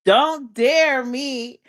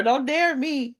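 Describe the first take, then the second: First: "Don't dare me" drawn out very slowly, weight on "dare", falling; slow emphatic warning. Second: Quick playful don't dare me, falling at the end; sassy warning. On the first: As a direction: stretch every word of "Don't dare me" like a dare back. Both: Real, not acted. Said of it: "Do it if you dare".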